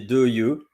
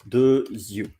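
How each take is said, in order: First: The two words are not linked by a z sound. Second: The two words are linked by a z sound. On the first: The speaker calls it wrong. "you don't say deux yeux" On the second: The speaker calls it right. "because of the link, you say deux yeux"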